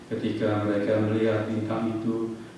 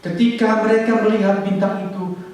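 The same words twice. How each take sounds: First: It is read flatly, without feeling. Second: It is read with strong joyful feeling. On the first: The speaker calls it wrong. "saudara membaca kurang lebih begini" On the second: The speaker calls it right. "apakah saudara menjiwai ayat itu?"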